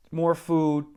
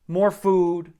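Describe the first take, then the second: No difference in how they are said.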